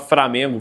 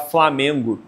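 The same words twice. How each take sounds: First: The first syllable is said with an R sound. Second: The first syllable is said with an L sound. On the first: This reflects a Bantu-influenced way of speaking. "Essa mudança do R pelo L" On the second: This is the standard form. "ela não conseguia falar Flamengo"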